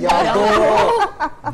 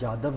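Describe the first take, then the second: First: The name ends with an 'o' vowel. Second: The name ends with a 'v' sound. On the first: "ये यादो है" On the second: "ये यादव नहीं है"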